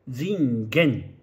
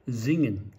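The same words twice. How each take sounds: First: All syllables get equal weight, the ending is strong. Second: The first syllable is stressed, the ending is weak. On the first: The speaker calls it wrong. "ジンゲンとか言わないんですよね" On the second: The speaker calls it right. "ジンにアクセントがありますから"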